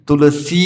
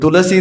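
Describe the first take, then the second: First: The final vowel is held long. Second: The final vowel is held short. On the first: The speaker calls it right. "सी लंबा है" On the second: The speaker calls it wrong. "तुलसी नहीं है"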